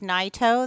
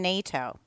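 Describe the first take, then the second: First: The first syllable sounds like 'nigh'. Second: The first syllable sounds like 'nay'. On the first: This is the original family pronunciation. "Americans seemed to have a harder time with Naito" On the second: This is the changed, Americanized pronunciation. "he changed the pronunciation in the nineteen fifties to Nato"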